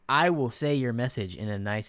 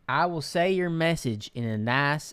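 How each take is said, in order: First: It is said in the speaker's plain accent. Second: It is said in a Southern accent.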